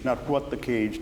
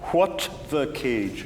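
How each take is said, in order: First: The T of 'what' is swallowed, unreleased. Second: The T of 'what' is clearly released. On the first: The speaker calls it wrong. "Don't implode the T" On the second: The speaker calls it right. "give me more definition"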